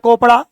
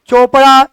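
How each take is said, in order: First: The name begins with a k sound. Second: The name begins with a ch sound. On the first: "अगर आप कहते हैं केमिस्ट्री department तो कहिए mister कोपड़ा" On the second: "और कहते हैं चोपड़ा"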